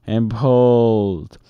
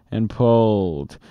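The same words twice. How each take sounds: The two takes are said the same way.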